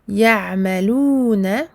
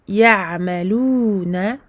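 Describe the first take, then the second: The two takes are said the same way.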